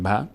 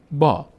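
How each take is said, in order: First: ب with a short "a"; short vowel. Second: با with a drawn-out open "aa"; long aa. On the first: Teacher showing the unwanted short form, ب with short a. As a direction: say ب briefly, vowel not stretched. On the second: Teacher showing the lengthened fatha, با with long aa. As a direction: stretch the vowel in با. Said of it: "با صدای آ". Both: Shown as a demonstration.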